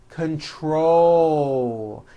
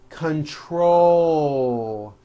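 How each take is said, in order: Both takes have the same delivery.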